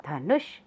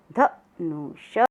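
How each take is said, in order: First: Said in the usual way. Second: धनुष drawn out as ध-नु-ष; slow syllable reading. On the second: Shown as a demonstration. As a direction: sound out धनुष slowly. (धनुष धीरे-धीरे अक्षर तोड़कर) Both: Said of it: "साथ साथ बोलेंगे सब".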